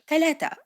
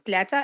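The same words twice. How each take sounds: First: It is said in a Standard Arabic accent. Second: It is said in a Moroccan Arabic accent. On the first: "And then in Arabic" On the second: "that's Moroccan"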